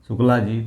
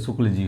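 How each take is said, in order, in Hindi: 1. नाम का अंत दीर्घ 'aa' स्वर से होता है। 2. नाम का अंत बिना किसी अंतिम स्वर के होता है। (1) "शुक्ला जी तो" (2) "शुक्ल जी होता है"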